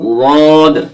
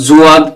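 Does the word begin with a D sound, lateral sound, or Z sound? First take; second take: lateral sound; Z sound. First: It begins with a sound made at the tongue's side. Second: It begins with a Z sound. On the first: The speaker calls it right. "জীবের কিনারাটা মাড়ির দাঁতের গোড়ার সাথে লাগিয়ে দেবেন এবং উচ্চারণ করবেন" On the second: The speaker calls it wrong. "এগুলো ভুল। জুয়াদ হবে না"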